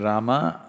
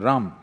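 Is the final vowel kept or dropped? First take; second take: kept; dropped. First: The word ends with a final vowel. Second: The word ends without the final vowel.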